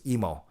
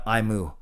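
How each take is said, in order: First: The name rhymes with 'Nemo'. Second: The name sounds like the word 'emu'. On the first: The speaker calls it right. "like Nemo" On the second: The speaker calls it wrong. "not Imu, like a cow"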